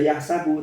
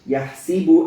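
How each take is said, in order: First: The s is followed by an 'a' vowel. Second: The s is followed by an 'i' vowel. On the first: This is the usual reading. "bukan dibaca yahsabu" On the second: This is the other transmitted reading. "tapi bikasri sin"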